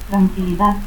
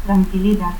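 First: Said in the usual way. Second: Tranquilidad ending as "-dat"; altered final D. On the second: Shown as a demonstration. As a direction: cut the last D of Tranquilidad to a stop. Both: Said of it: "confusión de D y T al final".

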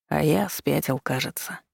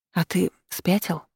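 First: Softly husky agreement; hoarse. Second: Mildly breathless question; halting question, a touch winded; catching breath. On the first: Demon agrees while holding her tight, quietly hoarse. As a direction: agree hoarsely, fading much softer at the end. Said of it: "сипло согласился демон". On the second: Heroine asks demon after the kiss, slightly out of breath. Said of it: "пытаясь продышаться, смогла добавить". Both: A narrator's reading.

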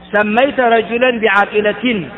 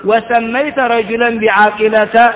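First: بعاقلة said slowly as bi-ʿāqilatin, ending in -tin; with nunation. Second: بعاقلة said slowly as bi-ʿāqilata, ending in a bare -ta with no tanween; without nunation. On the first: Teacher showing students the nunated reading of بعاقلة. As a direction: stretch out بعاقلة with the final tanween -tin clearly sounded. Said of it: "وذلك أن تحكي". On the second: Teacher showing students بعاقلة as a diptote with no tanween. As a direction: drop the nun on بعاقلة and end it on an open -ta. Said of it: "فتمنعه من الصرف". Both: Shown as a demonstration.

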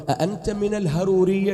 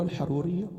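First: الهرورية with a plain h sound where ح belongs; mispronouncing the word. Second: Said in the usual way. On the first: Retold or imitated. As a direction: say الهرورية as ihHarooriya, softening ح to h. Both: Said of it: "ما يعرف ينطقها".

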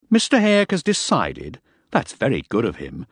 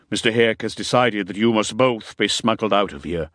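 First: Angry incredulity. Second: Even, down-to-earth announcement; practical, controlled delivery; businesslike. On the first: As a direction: throw the decision back in disbelief. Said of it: "beginning to get angry". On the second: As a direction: state the decision matter-of-factly. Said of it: "He was trying now to sound down to earth and businesslike". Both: A narrator's reading.

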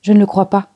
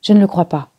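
First: Even louder insistent cry; louder repeat. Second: Loud protesting cry. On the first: Lily insists again, louder and more indignant. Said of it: "répéta-t-elle". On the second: Lily defends Victor, crying out loudly. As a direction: cry it out in disbelief. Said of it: "poussa un cri". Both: A narrator's reading.

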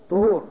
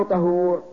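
First: "طهور" with a short u after ط, loud; damma on ṭā'. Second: "طهور" with a short a after ط, loud; fatha on ṭā'. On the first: Teacher asking which word fits water, loud damma on ط in "طهور". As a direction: say "طهور" as ṭuhūr, punched out. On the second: Teacher asking which word fits water, loud fatha on ط in "طهور". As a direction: say "طهور" as ṭahūr, punched out. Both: Shown as a demonstration. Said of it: "بالفتح".

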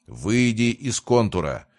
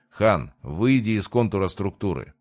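First: Повыше, с лёгким нажимом; прикажи твёрдо, с оттенком рыка; рычащий приказ. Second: Said in the usual way. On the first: A narrator's reading. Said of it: "прорычал Мортимер". (сдержанно рычащий приказ) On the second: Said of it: "неожиданно произнёс Ройс".

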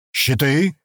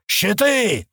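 First: Commanding call of the order Щиты, firm but not shouted; short firm command to raise shields; crisp command. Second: Щиты yelled much higher as a sudden panicked battle cry; sudden higher yell of warning; alarmed yell. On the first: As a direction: snap out Щиты as a clipped order to the men. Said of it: "скомандовал бык". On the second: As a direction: scream Щиты as the wall bursts open. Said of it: "заорал он". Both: A narrator's reading.

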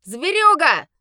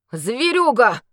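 First: Loud, high spat insult. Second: Shocked, louder gasped word; breathed in shock. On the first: A wedding guest spitting an insult at the werewolf. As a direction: spit the word out in disgust. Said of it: "выплюнул кто-то". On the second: Shaken knight recognizing the beast. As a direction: exhale it in horror. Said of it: "выдохнул потрясённый Андрей". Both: Acted.

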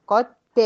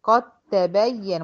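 First: قد ت with the د sounded, higher and louder as a mistake; mock wrong reading; wrong unmerged take. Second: Slow قد تبين, ق straight onto a doubled ت; correct merged take. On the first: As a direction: say the د clearly as a deliberate error. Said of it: "ما قلتش قد ت". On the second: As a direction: recite it right, no د heard. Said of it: "بدخل من القاف على الت". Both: Shown as a demonstration.

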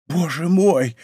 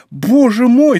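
First: Stunned, wondering exclamation; restrained astonishment; dazed repeating. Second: Loud, high cry of astonishment; overjoyed disbelief, full voice; amazed repeating. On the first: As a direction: say it dazed, just coming round. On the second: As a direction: repeat it much higher and louder, overwhelmed. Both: A narrator's reading. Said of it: "твердил Планше".

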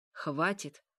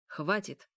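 First: Insistent command, little real extra volume; firmer repeated command. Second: Short, gruff command in an understated growl; restrained growl. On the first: Mikhail holds the vampiress, firmly commanding. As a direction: insist firmly, falling at the end. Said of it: "повторил ещё громче". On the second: Mikhail stops the princess, mildly growling. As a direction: cut her off with a mild growl. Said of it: "рыкнул тот". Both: A narrator's reading.

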